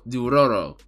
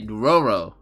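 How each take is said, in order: First: The name is said in a Japanese-style way. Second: The name is said in an English way. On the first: This is the original name of the anime. "the anime is called Dororo, right?" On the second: This is how it is naturally said in English. "I'm just going back to say Dororo, right? Because that's English"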